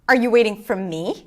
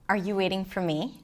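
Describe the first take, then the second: First: It is said in an upset, annoyed tone. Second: It is said in a soft, romantic tone. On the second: "in a romantic way"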